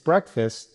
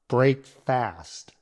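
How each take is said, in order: First: The first syllable is a short 'breck'. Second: The first syllable is a long 'brake'. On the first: The speaker calls it right. "it's breakfast" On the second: The speaker calls it wrong. "not break fast"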